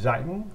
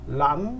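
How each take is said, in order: First: It starts with a z sound and ends in ng. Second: It starts with an r sound and ends in n. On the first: "북부 발음에서는 네, 또이 자잉 이렇게 되는 거예요" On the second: "남부 쪽으로 가면은 이거를 R 발음을 해요. 그래서 란 이렇게 발음해요"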